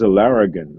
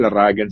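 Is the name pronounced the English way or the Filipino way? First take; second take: English; Filipino. First: The name has an anglicized English pronunciation. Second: The name has a Filipino pronunciation. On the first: This is how people in the UK say it. "Pagdating dito, mas" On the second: This is how people in the home country say it. "sa Pilipinas"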